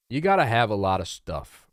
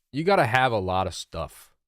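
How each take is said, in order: Both takes have the same delivery.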